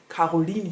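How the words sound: The name is said with German pronunciation.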